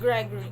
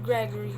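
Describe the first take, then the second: The two takes are said the same way.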